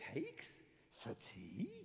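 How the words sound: The voice sounds puzzled and questioning. The speaker is asking whether there are cakes for tea. "Or you could go"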